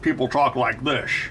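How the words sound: It is said in a Scottish accent.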